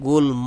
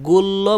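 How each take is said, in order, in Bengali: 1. m ধ্বনিটি স্পষ্টভাবে উচ্চারিত হয়। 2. m ধ্বনিটি উচ্চারিত হয় না। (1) "এখানে ম কিন্তু উচ্চারণ হইতাছে" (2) "গুল্ম বলব না"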